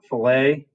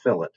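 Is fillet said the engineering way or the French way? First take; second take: French; engineering. First: It is said with the French pronunciation. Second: It is said with the engineering pronunciation. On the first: This is the everyday, non-engineering word. "normally this is a French word and you pronounce it" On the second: This is the engineering term for a rounded edge. "except when you're in engineering, you call it a"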